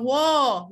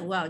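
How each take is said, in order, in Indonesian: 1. Vokalnya diucapkan tebal dan berat. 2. Vokalnya diucapkan tipis dan ringan. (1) "Jangan wow. Wow tak mau" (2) "Wow kena baca dengan nipis"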